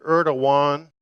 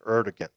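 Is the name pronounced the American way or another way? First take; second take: another way; American. First: The name is said in a non-American way. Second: The name is said in an American way. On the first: "That's another pronunciation" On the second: "the more American kind of pronunciation"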